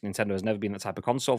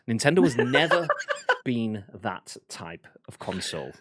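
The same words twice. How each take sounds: First: It is read in a casual, ordinary voice. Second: It is read in a solemn, serious voice.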